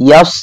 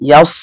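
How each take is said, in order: No difference in how they are said.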